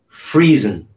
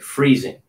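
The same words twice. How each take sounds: First: The final g sound is dropped. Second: The final g sound is pronounced. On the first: The speaker calls it wrong. "they won't pronounce the G, but that's not correct" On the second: The speaker calls it right. "You want to pronounce it freezing, ing"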